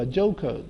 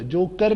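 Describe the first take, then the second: First: جوکر as "jo-kuh", no r; silent final r. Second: جوکر ending in a full "kar"; wrong take, sound the r in جوکر; counter-example جوکر with a clear final r; pronounced final r. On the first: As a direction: end جوکر without the r. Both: Shown as a demonstration. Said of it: "جوکر نہیں ہوگا".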